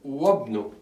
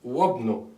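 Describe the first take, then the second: The two takes are said the same way.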